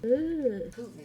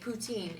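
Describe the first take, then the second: First: The word is said as 'POO-tin'. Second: The word is said as 'poo-TEEN'. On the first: The speaker calls it right. "you say Putin. like the dictator" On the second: The speaker calls it wrong. "that's how I said it. And I was very quickly corrected"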